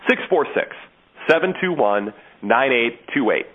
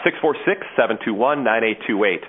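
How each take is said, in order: First: The number is read at a slower pace. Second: The number is read at a faster pace.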